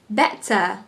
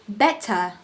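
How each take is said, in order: First: The middle consonant is a crisp T. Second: The same.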